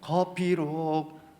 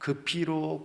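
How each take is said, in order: First: The first word has an 'eo' vowel. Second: The first word has a plain 'eu' vowel.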